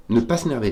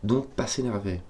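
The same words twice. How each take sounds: First: Louder insistent "Ne pas s'énerver", "pas" stressed; firmer repeat. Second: Said in the usual way. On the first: Real, not acted. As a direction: press the word "pas" as a self-warning. (répété plus fort, en appuyant sur « pas »)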